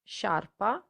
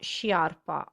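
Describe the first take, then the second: First: No I sound is heard after the sh. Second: An I sound is heard after the sh. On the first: The speaker calls it right. "the I is silent, so you need to say sha, sciarpa" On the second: The speaker calls it wrong. "it's not sciarpa"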